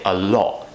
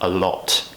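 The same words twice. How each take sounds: First: The T is stopped in the throat. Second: The T is clearly released.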